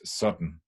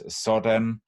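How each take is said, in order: First: The word is strongly reduced and shortened. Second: The second syllable has a clear A vowel. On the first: "it can be very reduced" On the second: "with a clear A"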